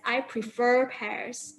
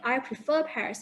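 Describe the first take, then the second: First: "I prefer pears" with the final R of "prefer" sounded, slow; "pears" with R pronounced. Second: "I prefer pears" with "prefer" ending on a plain vowel, no R; British "pears" without R. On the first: Teacher shows the wrong British form, final R sounded. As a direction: say "prefer" ending in a clear R before "pears". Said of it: "you won't pronounce it as". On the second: Teacher shows the correct British form, no final R. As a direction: drop the R at the end of "prefer". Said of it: "You will say". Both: Shown as a demonstration.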